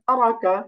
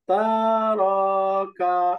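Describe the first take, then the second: First: The vowels are kept short without lengthening. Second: The vowels are drawn out and lengthened. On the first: The speaker calls it right. "টান হবে না" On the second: The speaker calls it wrong. "অনেক সময় তারাকা বা তারাকা এরকম টান টেনে পড়ি"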